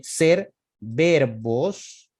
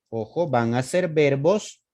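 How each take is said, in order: First: Ser verbos dragged out very slowly; teacher stressing the rule at a crawl; very slow emphasis. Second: Said in the usual way. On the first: Shown as a demonstration. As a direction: stretch "ser verbos" word by word to drive it home.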